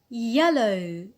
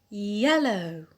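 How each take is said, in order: No difference in how they are said.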